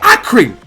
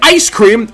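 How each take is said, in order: First: No s sound comes before cream. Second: An s sound comes before cream. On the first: The speaker calls it wrong. "I'm saying eye cream" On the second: The speaker calls it right. "instead of saying ice cream"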